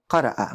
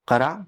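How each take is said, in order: First: قرأ ending in a glottal catch; qara' with the hamza sounded at the end; hamza stop. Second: قرا with a long open alif, no catch; قرا said smoothly, vowel drawn out; plain alif. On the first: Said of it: "اور یہ ہے قرأ". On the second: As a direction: qara with a plain stretched alif. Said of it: "تو یہ قرا ہے". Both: Shown as a demonstration.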